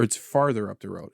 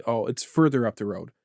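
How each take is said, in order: First: "farther" with an ar vowel; stress on farther. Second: "further" with an er vowel; stress on further. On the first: Husband answering his wife, "farther" said with ar. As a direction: make "farther" the key word. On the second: Husband answering his wife, "further" said with er. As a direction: make "further" the key word. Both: Retold or imitated. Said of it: "Is it further or farther?".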